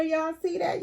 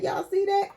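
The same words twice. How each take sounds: First: High, eager show-off question; Y'all see that? asked up high; excited. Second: Pitched even higher, squealing with delight; Y'all see that? pushed way up high; more excited. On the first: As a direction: point at the shoes, thrilled. Showing off figure's shoes. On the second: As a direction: top the first ask, practically squeaking. Repeats, even more thrilled. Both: Real, not acted.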